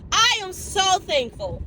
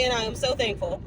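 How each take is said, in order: First: "I am so thankful" high and drawn out; emphatic repeat. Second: Said in the usual way. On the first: Real, not acted. Grateful for Friday, "I am so thankful" said high, slow, emphatic. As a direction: stretch "I am so thankful" slowly, pitched high.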